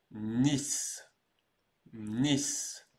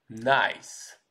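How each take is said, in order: First: NICE said as French "niss"; NICE with a long ee vowel and final s; correct French pronunciation. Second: NICE said as English "naïs"; NICE read the English way, with an eye vowel; English mispronunciation. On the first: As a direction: model French NICE, rhyming with Brice. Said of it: "cette ville-là se prononce différemment". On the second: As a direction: rhyme NICE with English "ice". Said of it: "comme en anglais". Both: Shown as a demonstration.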